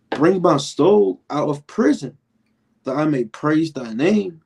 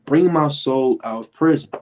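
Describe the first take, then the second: First: Slow, higher solemn reading of the verse; scripture reading. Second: Said in the usual way. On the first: Acted. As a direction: read it out like holy scripture.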